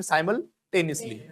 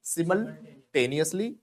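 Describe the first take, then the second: First: "simultaneously" as SY-mul-TEN-is-lee; slowly, SY and TEN-is-lee in "simultaneously"; alternative pronunciation. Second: "simultaneously" as SIM-ul-TAY-nee-us-lee; slowly, SIM and TAY-nee-us-lee in "simultaneously"; one accepted pronunciation. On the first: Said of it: "या फिर simultaneously". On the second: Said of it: "British और American जो pronunciation". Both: Shown as a demonstration.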